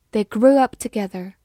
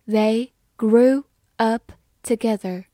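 First: Said in the usual way. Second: Slow and deliberate, syllable by syllable; slow practice read. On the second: Shown as a demonstration. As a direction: read it slowly for learners. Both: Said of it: "好，慢慢来读。".

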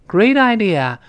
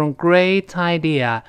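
First: "great idea" with t softened to d, like "gray-die-dea"; voiced linking t. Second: "great idea" linked with a crisp t, like "gray-tie-dea"; unvoiced linking t. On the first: Teacher shows fast-speech linking, "great idea" with t as light d. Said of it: "那个t又轻轻变成的great idea". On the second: Teacher shows the theoretical reading, "great idea" with crisp linking t. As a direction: link "great idea" keeping the t hard. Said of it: "那个t跟i的理论上都是great idea". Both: Shown as a demonstration.

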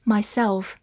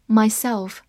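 No difference in how they are said.

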